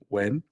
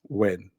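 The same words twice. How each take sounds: First: The pitch rises through the word. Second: The pitch falls through the word.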